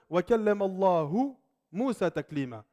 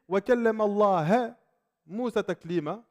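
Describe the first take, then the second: First: Allah keeps its usual final vowel. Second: Allah ends with a different final vowel. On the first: God spoke to Moses. The speaker calls it right. "Ça, c'est ce qui a été rapporté" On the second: Moses spoke to God. The speaker calls it wrong. "Si tu changes une voyelle"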